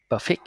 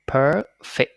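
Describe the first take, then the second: First: "perfect" said quickly as puh-fik; wrong first vowel. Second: "perfect" with long rising PER, then fikt; long stressed PER. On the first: Teacher shows the wrong reading, short vowel in "perfect". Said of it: "No, nó là". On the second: Teacher models the corrected word, "perfect" with long PER. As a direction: stretch and stress the first syllable of "perfect". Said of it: "âm nhấn là per". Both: Shown as a demonstration.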